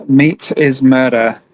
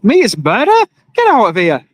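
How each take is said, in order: First: "Meat is murder" read slow and even, each word weighted like a slogan; sign read slowly. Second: "Meat is murder?" as a scoffing question, then a dismissive "Get out of here"; mock scoffing worker. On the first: Shown as a demonstration. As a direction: spell out "Meat is murder" slowly, like reading a placard. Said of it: "So it says". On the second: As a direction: lightly act out an annoyed worker brushing off the sign. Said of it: "I'd be thinking to myself".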